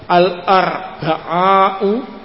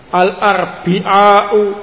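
First: The vowel after the b is a. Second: The vowel after the b is i.

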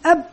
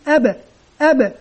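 First: The final b stops flat without a bounce. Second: The final b is released with an echoing bounce.

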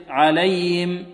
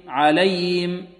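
The two takes are said the same way.

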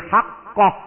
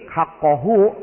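First: The word ends with a stop, no vowel. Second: The word ends with a final vowel.

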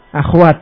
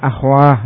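First: The word ends with a t sound. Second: The word ends with an h sound. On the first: This is the ordinary form of the plural. "Tadinya apa aslinya? Akhwat" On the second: This is the form used when pausing at the word. "tapi di sini dengan ha, akhwah diwaqafkan"

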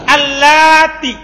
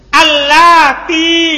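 First: The final vowel is short. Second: The final vowel is long.

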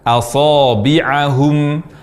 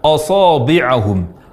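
First: The first vowel is light and sounds like a. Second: The first vowel is thick and sounds like o. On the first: The speaker calls it right. "harusnya a" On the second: The speaker calls it wrong. "mengucapkan huruf hamzah dengan tafkhim, yakni suaranya tebal sehingga berbunyi o"

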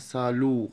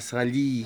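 First: The final vowel is a plain 'oo' sound. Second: The final vowel is a plain 'ee' sound. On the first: "محدش يقول عليها سالو غلط" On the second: "ولا سالي غلط"

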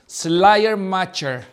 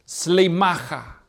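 First: The name is pronounced with Spanish sounds. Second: The name is pronounced with German sounds. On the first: "lo leemos en español" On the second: "Así se pronuncia en alemán"

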